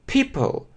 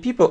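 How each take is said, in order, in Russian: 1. p произносится с придыханием. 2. p произносится без придыхания. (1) "вначале выдыхаем" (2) "не people"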